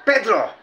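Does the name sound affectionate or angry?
angry. The name is said in an angry tone. The person who said it is angry. "Siguro galit sa akin si Pedro"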